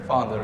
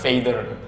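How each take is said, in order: First: The first vowel sounds like 'ah'. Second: The first vowel sounds like 'ay'. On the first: The speaker calls it right. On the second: The speaker calls it wrong.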